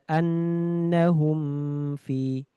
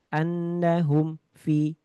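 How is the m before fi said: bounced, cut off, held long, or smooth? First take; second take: held long; cut off. First: The m is pressed hard and held long. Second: The sound breaks off after the m. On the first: "terlalu ditekan lama-lama" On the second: "Terputus. ... ada putus"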